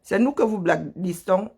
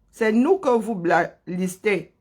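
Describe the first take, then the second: First: Said in the usual way. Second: Slow, deliberate correction with "nous" stressed. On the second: Real, not acted. Streamer correcting her own slip, slow and careful. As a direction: say it again properly, leaning on "nous".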